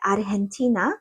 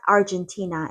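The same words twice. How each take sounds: First: The name is said with Korean sounds. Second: The name is said with English sounds. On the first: "we call it Argentina" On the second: "not Argentina as in English"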